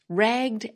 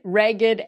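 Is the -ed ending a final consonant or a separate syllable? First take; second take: final consonant; separate syllable. First: The -ed ending is only a final consonant. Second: The -ed ending is a separate syllable. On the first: "If these words were pronounced like most English words ending in ed" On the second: "has the same unusual pronunciation of the suffix ed"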